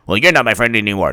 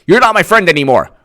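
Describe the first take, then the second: First: Quick, low, softer comeback; lower retort. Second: Mock indignant, higher voice; higher retort. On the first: Acted. Other friend answers, quick low mock huff. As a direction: answer back in a lower, quieter voice. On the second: Friend ends friendship, quick high mock huff. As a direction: throw it out quickly, pitched up. Acted quarrel, traded retorts.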